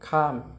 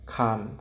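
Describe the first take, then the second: First: The syllable is said with a falling tone. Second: The syllable is said with a low tone. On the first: "ไม่โทข้าม" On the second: "ไม่เอกขาม"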